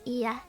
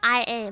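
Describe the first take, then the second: First: The name is spoken as one joined word. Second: The name is spoken as two separate letters. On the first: The speaker calls it right. "but it's" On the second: The speaker calls it wrong. "I always thought her name was pronounced"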